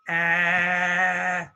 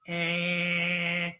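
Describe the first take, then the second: First: The vowel comes out through the mouth. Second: The vowel comes out through the nose.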